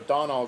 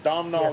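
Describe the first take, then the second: First: The name is said without an M sound. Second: The name is said with an M sound. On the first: The speaker calls it right. "as though the M and the H aren't in there" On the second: The speaker calls it wrong. "I'm going to mispronounce it again"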